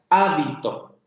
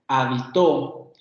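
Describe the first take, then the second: First: The stress is on the first syllable. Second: The stress is on the last syllable. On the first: It names the garment worn by monks. "yo pongo el acento en la primera sílaba" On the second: It means he lived somewhere, past tense. "si yo le pongo el acento en la última sílaba"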